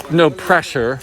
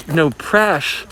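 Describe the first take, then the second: First: Said in the usual way. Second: "press" clipped to "presh"; shortened to presh. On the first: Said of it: "if someone says". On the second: Shown as a demonstration. Showing how people shorten no pressure, "press" as "presh". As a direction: say "press" with a closing sh. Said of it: "But if people say".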